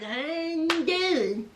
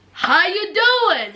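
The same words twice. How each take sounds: First: Slow, hushed mock greeting; soft echoed greeting. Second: Drawn-out, hearty mock greeting; acted greeting. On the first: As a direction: repeat the greeting softly, stretched out. Repeats the acted greeting, softly. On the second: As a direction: greet them slowly, playing the part. Acting out Anthony's greeting on arrival.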